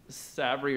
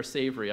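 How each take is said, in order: First: SAVRI said slowly with a short a, as SAV-ree; alternative pronunciation. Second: SAVRI said with a long a, as SAY-vree; alternative pronunciation. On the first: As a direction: say SAVRI to rhyme its first part with "have". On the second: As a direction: say SAVRI to start like the word "save". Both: Shown as a demonstration. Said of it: "I'm never sure how to say it".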